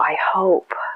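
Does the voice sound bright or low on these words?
bright. The voice is bright, lifted and enthusiastic. The speaker truly believes it will happen. The speaker calls it right. "Oh, wow"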